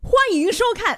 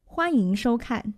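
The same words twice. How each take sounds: First: It is said in a lively, energetic voice. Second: It is said in a plain, ordinary voice.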